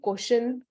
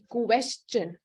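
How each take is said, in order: First: The first vowel sounds like an O. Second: The first vowel sounds like an E. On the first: The speaker calls it wrong. "at times we tend to say question or kosh, ko, like the O sound" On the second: The speaker calls it right. "if you focus on the U E, question, that's how it's pronounced"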